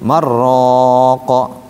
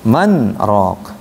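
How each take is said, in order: First: The n merges into r without a stop. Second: A brief stop separates man from rok. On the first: The meaning changes. The speaker calls it wrong. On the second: It means who is the healer. The speaker calls it right.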